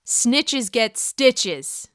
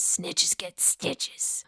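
First: Said in the usual way. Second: Slow, hushed warning; menacing whisper. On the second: Acted. Podcaster repeating the saying about Wendy, slow whisper. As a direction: whisper it slowly, drawing out each word.

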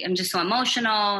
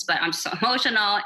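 First: Said in the usual way. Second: A laugh breaks into the word; laughing mid-word. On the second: Real, not acted. Guest laughing at her own hormones, laughing mid-phrase. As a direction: laugh at yourself as you say it. Says it twice, laughs second time.

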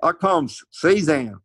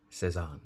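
First: Arkansas drawl, slow, Cezanne as SIZ-ann; slow Southern Arkansas drawl, Cezanne said SIZ-ann; Arkansas accent. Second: Cezanne said the French way, nasal end. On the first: Retold or imitated. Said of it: "Like in, in Arkansas". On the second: Shown as a demonstration. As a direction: Cezanne with a soft French ending.

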